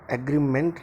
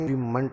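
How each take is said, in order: First: The first vowel is not an 'uh' sound. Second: The first vowel is an 'uh' sound. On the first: The speaker calls it wrong. "एग्रीमेंट नहीं" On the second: The speaker calls it right. "अग्री बोला जाता है"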